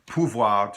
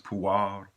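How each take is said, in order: First: The v sound is clearly pronounced. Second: The v sound is dropped, ending like war.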